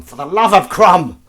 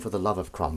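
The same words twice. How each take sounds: First: High, drawn-out loud shout; exclaimed curse. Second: Said in the usual way. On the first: Pretend. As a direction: bellow it as a mock oath. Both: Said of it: "That's a curse, I like to say".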